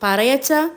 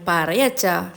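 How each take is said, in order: First: Coaxing. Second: Affectionate. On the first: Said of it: "മേഘ പിന്നെയും ചോദിച്ചു". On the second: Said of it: "അവൾ പിന്നെ അച്ഛനോട് സ്നേഹത്തോടെ പറഞ്ഞു". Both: A narrator's reading.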